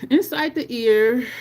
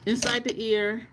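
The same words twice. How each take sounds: First: "Inside the ear" louder and slower, INSIDE stressed; restated firmly. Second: Said in the usual way. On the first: Shown as a demonstration. Back to the stream after an interruption, "Inside the ear" slower and louder. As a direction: restart the step with weight on "Inside". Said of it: "one fifty-two when it just spun".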